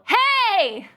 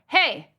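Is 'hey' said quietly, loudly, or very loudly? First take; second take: very loudly; loudly. First: It is said very loudly, like real trouble. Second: It is said louder, like scolding a pet.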